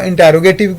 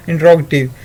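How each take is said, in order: First: इंटरोगेटिव with the full vowel, in-ta-ro-ge-tiv; alternative pronunciation. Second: इंटरोगेटिव clipped to in-trog-tiv, falling; standard pronunciation. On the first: Teacher showing the other way some people say इंटरोगेटिव, in-ta-ro-ge-tiv. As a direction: say इंटरोगेटिव as five clear syllables. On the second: Teacher giving the usual form to students, in-trog-tiv with a fall. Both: Shown as a demonstration. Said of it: "ये pronunciation different होती है".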